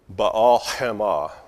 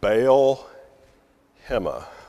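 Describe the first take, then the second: First: It is said with a throaty Hebrew h sound. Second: It is said with a plain English h sound. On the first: "let me clear my throat so I can pronounce this letter" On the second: "I'll pronounce it in more of an English style"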